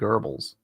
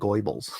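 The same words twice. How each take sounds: First: The name is said the usual spoken way. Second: The name is said following its spelling. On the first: "I don't know why you pronounce it Goebbels" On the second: "but it's spelled like Goebbels"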